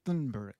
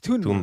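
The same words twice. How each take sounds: First: The name begins with a 'th' sound. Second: The name begins with a plain 't' sound. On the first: The speaker calls it wrong. "I actually always thought it was Thun Thunberg, something like because there's T H, right?" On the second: The speaker calls it right. "but it's Thunberg"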